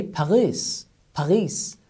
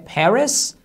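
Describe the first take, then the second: First: "Paris" with a French throaty r like ghain. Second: Said in the usual way. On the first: Retold or imitated. Teacher imitates French people saying Paris. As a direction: gargle the r in "Paris", French style. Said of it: "they say". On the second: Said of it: "Instead of saying".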